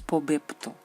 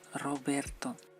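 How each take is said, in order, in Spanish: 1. La palabra empieza con un sonido P. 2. La palabra empieza con un sonido R. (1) "no es Pobepto" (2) "es Roberto"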